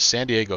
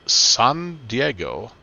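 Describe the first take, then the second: First: The name is pronounced with English sounds. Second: The name is pronounced with Spanish sounds.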